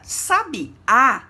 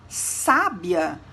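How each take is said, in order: First: The stress falls on the last syllable. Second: The stress falls on the first syllable. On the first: A songbird. "percebemos o acento agudo na última letra" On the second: A very intelligent person. "percebemos o acento agudo na letra A, que segue o S"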